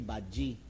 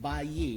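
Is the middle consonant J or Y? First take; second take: J; Y. First: The middle consonant is a J sound. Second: The middle consonant is a Y sound. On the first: This is how Surigao speakers say it. "their Y becomes J" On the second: This is the standard form. "instead of saying bayi"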